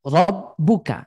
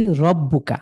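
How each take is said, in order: First: রব্বুকা with a thin, light র; one way of saying it. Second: রব্বুকা slowly with a thick, full র; contrasting slow take of রব্বুকা; the other way. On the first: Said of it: "এটা একরকম শোনায়". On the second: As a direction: read রব্বুকা with a heavy, full-mouthed র. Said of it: "এটা আরেক রকম শোনাবে". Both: Shown as a demonstration.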